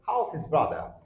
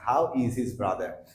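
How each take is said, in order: First: How and is blend into one short word. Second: Each word is said separately and fully. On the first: "native হলে কথাটাকে এইভাবে বলতো" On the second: "সাধারণত আমরা এইভাবে বলছি"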